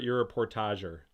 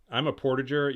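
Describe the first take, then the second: First: "portager" the Canadian-French way, por-tah-zhay-r; French-style portager. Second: "portager" said PORT-ij-er, with a hard j like "porridge"; "portager" rhymes with "porridge-er", English style; "portager" with an English j sound, PORT-uh-jer. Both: Shown as a demonstration. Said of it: "Are you a portager or are you a portager?".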